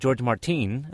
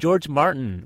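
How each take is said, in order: First: The name is said with Spanish pronunciation. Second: The name is said with plain English pronunciation.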